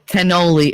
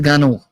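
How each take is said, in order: First: It is said with standard English pronunciation. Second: It is said with Italian-American dialect pronunciation. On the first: The speaker calls it wrong. "it's not a cannoli" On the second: The speaker calls it right. "it's a ganol"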